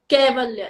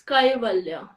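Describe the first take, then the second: First: The first syllable has a plain 'ay' vowel. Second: The first syllable has an 'ai' diphthong. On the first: The speaker calls it wrong. "it's not Kaivalya" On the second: The speaker calls it right. "a double A becomes Kai"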